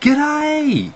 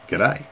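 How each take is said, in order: First: It is said in a surprised, delighted tone. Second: It is said in a flirtatious, suggestive tone. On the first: The speaker hasn't seen the listener for a while. "someone you haven't seen for a while" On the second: The speaker is trying to pick someone up. "like I want to pick you up"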